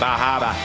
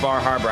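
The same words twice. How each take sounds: First: It is said in a thick New England accent. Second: It is said in a general American accent.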